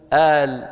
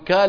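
First: The word begins with a glottal stop. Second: The word begins with a k sound. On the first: "وبعضهم يقلبها همزة" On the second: "وبعض العرب يقلب القاف كاف"

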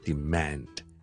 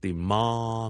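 First: It is said in an American English accent. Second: It is said in a British English accent. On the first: "美式英文会读成是demand" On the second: "英式英文我们是demand"

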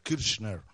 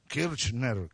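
First: The ch sound is pronounced strongly. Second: The ch sound is nearly silent. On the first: The speaker calls it wrong. "no se pronuncia la che tanto así" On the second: The speaker calls it right. "Es como muda"

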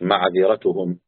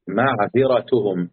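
First: The letters and vowels are run together. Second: Each letter is given its own vowel distinctly. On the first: The speaker calls it wrong. "مش معذرتهم" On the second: The speaker calls it right. "كل حرف عليه حركة أديله حركته"

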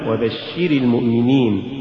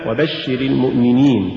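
First: The vowel before the verb's last letter is drawn out. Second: The vowel before the verb's last letter is short. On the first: A woman seems to be addressed. The speaker calls it wrong. "ولا تقل" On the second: A man is addressed. The speaker calls it right. "مثال"

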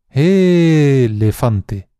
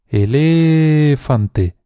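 First: The stress is on the first syllable. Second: The stress is on the second syllable. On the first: "alargando mucho cada una de las sílabas" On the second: "alargando mucho cada una de las sílabas"

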